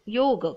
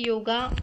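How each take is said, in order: First: The word ends on a bare 'g' consonant. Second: The word ends with an added 'a' vowel. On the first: It is the original word. The speaker calls it right. "योग हा शब्द आहे" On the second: It sounds westernized. The speaker calls it wrong. "योगा हा शब्दच चुकीचा आहे"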